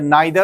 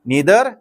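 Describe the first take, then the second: First: The first vowel sounds like 'eye'. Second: The first vowel sounds like 'ee'.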